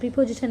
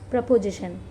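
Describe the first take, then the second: First: The first syllable has a long 'ee' vowel. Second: The first syllable has a short reduced vowel. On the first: The speaker calls it wrong. "प्रीपोजिशन नहीं" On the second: The speaker calls it right. "इसका pronunciation प्रपोजिशन करना"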